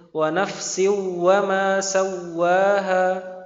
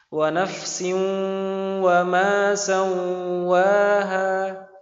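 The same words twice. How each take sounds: First: Neither spot is nasalized. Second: Both spots are nasalized. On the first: "Atau dua-duanya tanpa dengung" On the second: "Atau dua-duanya berdengung malah"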